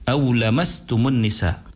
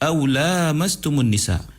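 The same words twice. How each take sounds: First: The vowel after the L is short. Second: The vowel after the L is long. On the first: It can mean sexual intercourse or merely touching by hand. "iaitu tanpa alif" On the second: It means sexual intercourse. "iaitu dengan alif"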